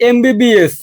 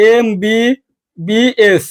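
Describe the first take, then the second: First: Said in the usual way. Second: "MBBS" very slowly, each letter stretched and separate; "MBBS" drawn out, one letter at a time. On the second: Shown as a demonstration. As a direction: spell out "MBBS" with gaps between letters. Teacher spells abbreviation letter by letter.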